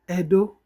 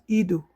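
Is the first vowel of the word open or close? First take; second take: open; close. First: The first vowel is an open e sound. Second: The first vowel is a close e sound. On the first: The speaker calls it right. "the pronunciation changes because of diacritic at the bottom of the E" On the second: The speaker calls it wrong. "not Edo"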